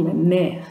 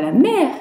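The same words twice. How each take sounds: First: «la mer» with the voice falling on «mer»; the right way, «mer» dropping; «mer» said with a downward tune. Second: «la mer» with the voice not falling on «mer»; the wrong way, «mer» not dropping; «mer» said without a falling tune. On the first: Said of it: "on dit". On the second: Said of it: "On dit pas". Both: Shown as a demonstration.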